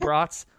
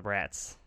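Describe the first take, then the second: First: BRATS said as "brahts"; sausage pronunciation. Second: BRATS rhyming with "cats"; short-a pronunciation. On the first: Host joking about eating sausages, BRATS as "brahts". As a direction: give BRATS an open "ah" vowel. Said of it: "is it brats or brats". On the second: Host joking about taking down the brats, short-a BRATS. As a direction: say BRATS with a flat "a" as in "cat". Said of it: "I read it as brats". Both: Shown as a demonstration.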